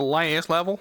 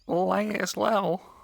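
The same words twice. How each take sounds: First: It is said in a plain normal voice. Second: It is said in a goofy put-on accent. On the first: "instead of me saying the last level" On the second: "I know I said it goofy"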